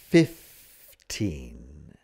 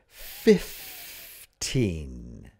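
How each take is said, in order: First: The first syllable sounds like 'fif'. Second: The same.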